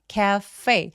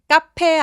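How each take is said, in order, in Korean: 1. 가운데 자음은 f 소리예요. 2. 가운데 자음은 p 소리예요. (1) "F 발음은 바람이 새어나와야 되고요" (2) "카페 아니고요"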